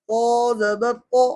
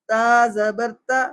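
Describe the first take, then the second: First: Slow "تو" with heavy, rounded emphatic t; thick heavy to. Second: Slow "تا" with light t and open a; thin ta. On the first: Teacher contrasting first letter pair, thick heavy "تو". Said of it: "ایک کی موٹی ہے". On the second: Teacher contrasting first letter pair, thin light "تا". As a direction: keep "تا" thin and light, drawn out. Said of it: "ایک کی آواز باریک ہے". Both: Shown as a demonstration.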